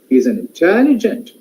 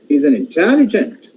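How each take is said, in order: No difference in how they are said.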